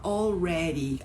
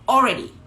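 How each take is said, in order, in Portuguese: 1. A palavra é dita devagar, com todas as sílabas plenas. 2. A palavra é dita rapidamente, de forma reduzida. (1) "Não fala already, assim como é ensinado no cursinho" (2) "Mas na hora de falar, fala I've already studied. Fala already"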